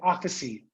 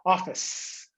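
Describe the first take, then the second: First: An extra vowel sound is added after the s. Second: The word ends sharply on the s sound. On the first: The speaker calls it wrong. "You say officey" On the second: The speaker calls it right. "we close it strongly"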